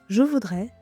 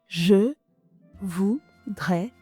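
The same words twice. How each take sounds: First: The phrase is spoken at a natural, flowing speed. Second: The phrase is spoken slowly and deliberately.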